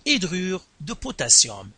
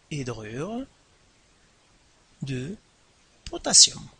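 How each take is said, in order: First: Said in the usual way. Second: "Hydrure ... de ... potassium" with long pauses between words; teacher's slow, spaced-out dictation. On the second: Shown as a demonstration. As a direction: dictate "Hydrure de potassium" one word at a time.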